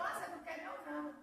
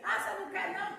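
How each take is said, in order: First: Lightly voiced God asking, plain level; God gently asking the sister, said plainly; God's voice, plain. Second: God's question, loud and pressing. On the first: Testifier quoting God to the congregation, plainly. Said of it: "E aí Deus falou". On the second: Retold or imitated. Testifier quoting God to the church, loud and pressing. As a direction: call it out loud as God challenging. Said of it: "vai ali do lado ali".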